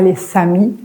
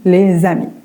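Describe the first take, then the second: First: Les links to amis with a hissing s sound. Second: Les links to amis with a buzzing z sound. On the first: The speaker calls it wrong. "Pas les samis" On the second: The speaker calls it right. "On dit les amis"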